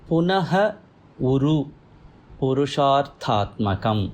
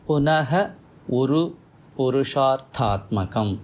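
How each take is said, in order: Both takes have the same delivery.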